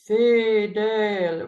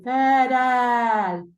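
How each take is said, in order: First: The vowel is said with a more closed mouth. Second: The vowel is said with a more open mouth. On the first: The speaker calls it right. "close the embouchure more and sing more fidel" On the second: The speaker calls it wrong. "rather than fidel"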